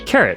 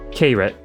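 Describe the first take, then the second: First: It sounds just like the word carrot. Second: It does not sound like the word carrot. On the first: The speaker calls it right. "like a crunchy orange carrot" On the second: The speaker calls it wrong. "am I saying that correctly?"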